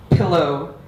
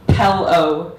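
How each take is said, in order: First: "pillow" with a short i, as in pill; corrected pronunciation. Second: "Pell-o" with an e, as in pell; parents' pronunciation. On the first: Practising in front of the mirror, "pillow" with a short i. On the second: Practising in front of the mirror, "Pell-o" with the accented e. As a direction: practise "Pell-o", e in place of short i. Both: Retold or imitated. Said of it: "I practice saying it in front of the mirror".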